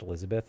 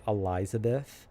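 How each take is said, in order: First: The name begins with an 'e' vowel sound. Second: The name begins with an 'a' vowel sound. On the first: It is simply the ordinary name. The speaker calls it right. "literally just supposed to be pronounced Elizabeth" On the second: The swapped letters are meant to signal something. The speaker calls it wrong. "they try to emphasize that like the repositioning of the vowels"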